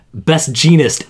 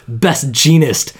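First: Said in the usual way. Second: "Best Genist" drawn out slow, each word weighted; slow announcer emphasis. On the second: Shown as a demonstration. Mocking the show's intro, he stretches "Best Genist" out slowly. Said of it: "And also the winner of Best Genist".

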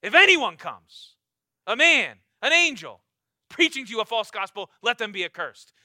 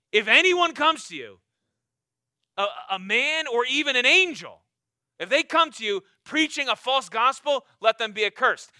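First: Emphatic repeat. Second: Loud, forceful preaching of Paul's warning; fiery Paul quote. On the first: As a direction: repeat it harder so nobody misses it. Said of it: "let me repeat myself". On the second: Preacher voicing Paul to the congregation, loud and forceful. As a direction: thunder it out as Paul would. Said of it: "Paul's like". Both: Acted.

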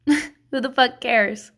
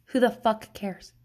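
First: Slow emphatic. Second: Said in the usual way. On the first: Real, not acted. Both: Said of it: "repeated catchphrase".

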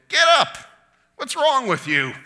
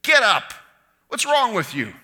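First: Put-on high, loud exasperated yell at a toddler; parent scolding toddler. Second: Exasperated scolding, high and loud; fed-up parent scolding a child. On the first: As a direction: yell at a kid throwing a tantrum. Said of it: "two-year-old on the floor of the grocery store". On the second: Acted. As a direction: snap at him like a fed-up parent. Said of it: "like a fed up parent".

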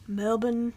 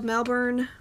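First: "Melbourne" as MEL-bin, no r; local-style pronunciation. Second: Said in the usual way. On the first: Shown as a demonstration. Host practising Melbourne for Australian listeners, local-style pronunciation. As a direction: clip "Melbourne" to a short, r-less second syllable. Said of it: "that sounds kinda good. That doesn't sound too bad".

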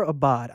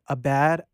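First: "Abad" ending like "bod"; alternative pronunciation. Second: "Abad" ending like the English word "bad"; unsure pronunciation. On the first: Guest correcting the artist's surname, "Abad" said as "a-BOD". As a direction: say "Abad" with an open ah in the last syllable. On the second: Guest naming the cover artist, "Abad" rhymed with "bad". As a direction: say "Abad" with a short a, as in "cat". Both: Shown as a demonstration. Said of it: "I'm not sure I'm saying it correctly".

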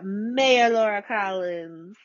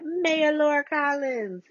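First: Drawn-out, relished title and name; savouring the name. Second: High, drawn-out proclamation of the name; sing-out the title slowly, loving it; relishing the name. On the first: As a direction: roll it out slowly, savouring it. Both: Real, not acted. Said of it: "I love saying that".

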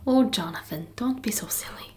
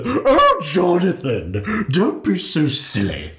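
First: Put-on soft, breathy Irish-accented tease; mock Irish whisper. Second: High, laughing, drawn-out Jonathan; put-on Irish lilt, teasing; mock posh Irish. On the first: Co-host echoing Mare's line in a quiet mock Irish accent. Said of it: "That was a perfect Irish accent". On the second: Imitating Mare to her co-host in a laughing Irish accent. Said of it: "That's not what she sounds like".

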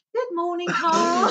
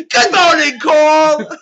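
First: Put-on high English accent greeting; chirpy English morning hello. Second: High, loud imitation of a posh English greeting; mock English accent. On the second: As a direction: shout it like a hammy English host. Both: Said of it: "Do more than just".

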